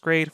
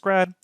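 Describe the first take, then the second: First: The vowel is long, as in 'made'. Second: The vowel is short, as in 'bad'. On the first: "pronounce them as grade for gradient" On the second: "with G R A D as grad"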